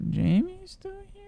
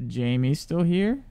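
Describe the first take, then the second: First: Very high, slow, softer put-on voice; hammed-up high-pitched disbelief; mock squeaky voice. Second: Said in the usual way. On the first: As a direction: ask it in a silly squeaky character voice. Repeating the question in mock voice.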